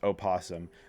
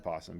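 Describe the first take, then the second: First: The word starts with an extra vowel syllable. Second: The word starts directly with the p sound. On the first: This is the technically correct name. "is pronounced opossum" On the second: This is the casual everyday name. "I'm still going to say possum"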